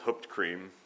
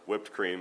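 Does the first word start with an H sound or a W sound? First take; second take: H sound; W sound. First: The first word starts with an H sound. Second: The first word starts with a W sound. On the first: This imitates a relative's habitual mispronunciation. "the very similar to root beer was hooped cream" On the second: This is how most people say it. "as most of us would pronounce it"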